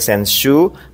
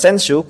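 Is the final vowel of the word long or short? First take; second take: long; short. First: The final vowel is held long. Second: The final vowel is cut short. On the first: The speaker calls it right. "Jadi kanji ini bacanya senshu" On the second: The speaker calls it wrong. "bukan senshu kurang u"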